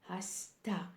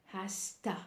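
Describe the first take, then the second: Both takes have the same delivery.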